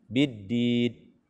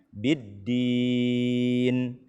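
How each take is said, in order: First: The final n is cut off abruptly. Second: The final n is held with nasal resonance. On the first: The speaker calls it wrong. "terlalu cepat kita berhenti ... tidak" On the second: The speaker calls it right. "berikanlah hak gunnahnya"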